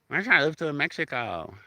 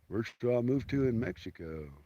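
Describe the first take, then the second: First: It is said in a goofy voice. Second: It is said in a dumb guy voice.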